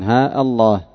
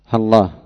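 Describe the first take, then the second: First: A long a, then a glottal stop before Allah. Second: Ha and Allah merge with no long vowels. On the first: "ثبوت الألفين، قطع الهمزة" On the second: "باللام بعد الهاء بغير إظهار شيء من الألفين"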